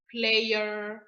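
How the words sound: The R is said like an English R. The speaker calls it right. "Donc, ce sera"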